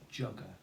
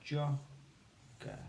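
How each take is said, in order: First: Said in the usual way. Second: "Jogger" split in two, jo, then ger; syllable by syllable. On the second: Shown as a demonstration. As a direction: break Jogger into two syllables with a clear gap. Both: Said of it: "these are the sounds to help".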